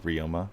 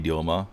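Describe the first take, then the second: First: The name is said with English pronunciation. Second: The name is said with Japanese pronunciation. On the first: The speaker calls it wrong. "instead of" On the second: The speaker calls it right. "like the Japanese pronunciation"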